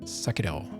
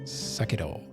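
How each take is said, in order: First: The r sounds almost like a d. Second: The r sounds almost like a d.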